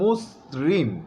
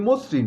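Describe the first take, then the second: First: The first vowel is a rounded 'o' sound. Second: The first vowel is an open 'aw' sound. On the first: The speaker calls it right. "হবে মসৃণ" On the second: The speaker calls it wrong. "আমরা বলি মসৃণ, no no no"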